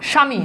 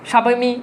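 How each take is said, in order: First: The word is said without any 'b' sound. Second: The word is said with a 'b' sound added. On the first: The speaker calls it right. "দেখো তো স্বামীতে কি বফলার উচ্চারণ আছে?" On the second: The speaker calls it wrong. "এরকম হয় না।"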